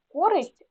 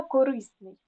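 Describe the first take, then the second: First: Користь stressed on КО; stress on first syllable. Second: Корисний stressed on РИ; stress on second syllable. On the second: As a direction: say коРИсний, leaning on РИ. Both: Shown as a demonstration. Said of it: "наголоси можуть часто змінюватися".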